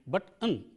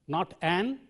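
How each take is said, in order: First: The word uses its reduced, weak vowel. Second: The word uses its full, strong vowel. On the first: The speaker calls it right. "the weak form is an" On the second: The speaker calls it wrong. "We don't say this is an apple, not an"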